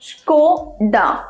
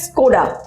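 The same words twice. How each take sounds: First: The word begins with a hushing sh. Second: The word begins with a plain hissing s. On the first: The speaker calls it right. "তালবস্যর উচ্চারণ আসবে দন্তেশ্বয় না" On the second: The speaker calls it wrong. "অনেকে যেটা করে সেটা হচ্ছে স্কোডা"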